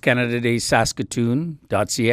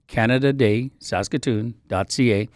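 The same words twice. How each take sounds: First: The address is said at a normal pace. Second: The address is said at a slow pace.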